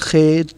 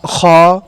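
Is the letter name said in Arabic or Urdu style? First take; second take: Urdu; Arabic. First: Urdu style, ending in an 'ay' vowel. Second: Arabic style, ending in an 'ah' vowel. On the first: The speaker calls it wrong. "बहुत से ऐसे लोग होते हैं जो इसको इस तरह पढ़ते हैं" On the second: The speaker calls it right. "बल्कि इसको इस तरह पढ़ना चाहिए"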